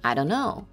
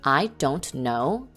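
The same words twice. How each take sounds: First: The T sound in don't is dropped. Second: The T sound in don't is pronounced.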